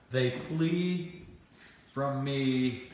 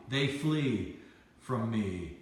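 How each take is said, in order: First: "They flee" and "from me" read slowly with a pause between, weight on flee and me; measured poem reading. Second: "flee" and "from" both hit hard, as two strong beats; spondee stress. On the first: Teacher reads the opening line to the class, measured and slow. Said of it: "here's that first line from Thomas Wyatt's poem". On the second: Teacher demonstrates how the line opens with a spondee, stressing both beats. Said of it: "it kind of opens with a spondee". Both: Shown as a demonstration.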